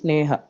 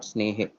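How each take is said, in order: First: The word ends in an 'a' vowel. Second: The word ends in an 'e' vowel. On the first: The speaker calls it right. "it is Sneha" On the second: The speaker calls it wrong. "not Snehe"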